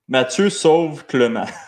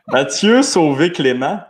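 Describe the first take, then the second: First: The e vowels are said as plain unaccented sounds. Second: The e vowels are said as closed 'ay' sounds. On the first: "sans accent aigu" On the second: "avec accent aigu"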